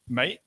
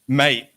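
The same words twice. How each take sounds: First: It sounds like a doubtful question. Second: It sounds impressed and admiring. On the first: Are you sure? "like are you sure, is a question" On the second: Congratulations. "mate is like congratulations"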